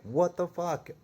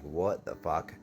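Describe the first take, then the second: First: Shocked disbelief. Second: Said in the usual way. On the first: Retold or imitated. Kicked out of the shop, a stunned high outcry. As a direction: blurt it out in total shock. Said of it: "And I was like". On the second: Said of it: "and I'm like".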